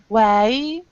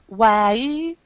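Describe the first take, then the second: First: The vowel is cut short as the mouth closes. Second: The vowel is cut short as the mouth closes.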